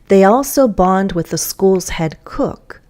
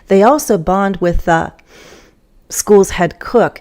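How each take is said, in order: First: It flows smoothly with pauses only at natural breaks. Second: It is broken by pauses in unnatural places. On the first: The speaker calls it right. "follow the natural breaks" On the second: The speaker calls it wrong. "it doesn't sound natural. It sounds choppy"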